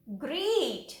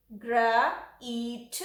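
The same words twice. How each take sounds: First: "ग्रीट" joined as one word; whole model word "ग्रीट"; blended word. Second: "ग्र", long "ई", "ट", each apart; sounding out. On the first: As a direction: blend "ग्रीट" with a long ee and falling end. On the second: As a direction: break it into "ग्र" and "ईट" with gaps. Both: Shown as a demonstration. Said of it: "इसको पढ़ते हैं ग्रा".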